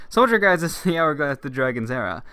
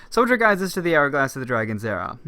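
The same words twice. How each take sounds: No difference in how they are said.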